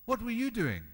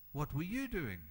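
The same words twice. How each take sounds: First: Raised question. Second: Quiet question. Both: Acted. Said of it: "repeated question, varied delivery".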